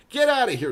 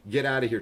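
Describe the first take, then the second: First: "Get outta here" yelled high and loud; "Get outta here" shouted in mock outrage. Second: Said in the usual way.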